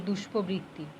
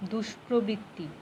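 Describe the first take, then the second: First: দুষ্প্রবৃত্তি said without its first r, as 'dushpobritti'; r dropped in দুষ্প্রবৃত্তি. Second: দুষ্প্রবৃত্তি with a clear r, 'dush-pro-britti'; corrected pronunciation, r sounded. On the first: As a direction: slip the r out of the 'pro' in দুষ্প্রবৃত্তি. Acted correction of a word's pronunciation. (দুষ্প্রবৃত্তি-র 'প্র' কে 'প' বলে উচ্চারণ) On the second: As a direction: sound the 'pro' fully in দুষ্প্রবৃত্তি. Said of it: "কি বললাম?". (দুষ্প্রবৃত্তি-র 'প্র' স্পষ্ট র-ফলা দিয়ে উচ্চারণ) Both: Acted.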